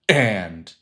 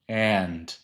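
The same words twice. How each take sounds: First: The word begins with a sharp glottal catch. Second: The word begins with a soft breathy onset. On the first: "instead of and" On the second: "you would create a silent H, so you don't create a glottal, like and"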